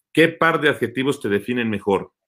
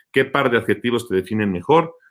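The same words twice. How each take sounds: No difference in how they are said.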